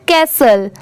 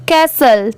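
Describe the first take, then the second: The two takes are said the same way.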